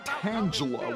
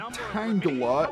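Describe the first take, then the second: First: The G is said as a soft sound. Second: The G is said as a hard sound.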